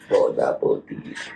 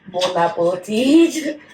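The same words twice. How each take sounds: First: It is said in a funny voice. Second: It is said in a normal voice.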